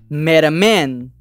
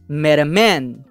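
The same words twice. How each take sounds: Both takes have the same delivery.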